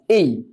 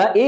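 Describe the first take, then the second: First: এই, slow and clear. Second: Said in the usual way. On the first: Shown as a demonstration. Teacher modelling এই for students, slow and clear. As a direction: say এই as a drawn-out diphthong, eh gliding to ee. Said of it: "you have to pronounce A as এই". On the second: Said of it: "আমরা এ এর উচ্চারণ আগে বলতাম এ".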